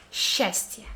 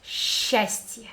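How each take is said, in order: First: Счастье whispered as shastye; sh start. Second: Счастье breathed, starting with sh, shastye; сч read as one sh in счастье. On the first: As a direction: breathe счастье. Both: Shown as a demonstration. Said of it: "like one letter sh".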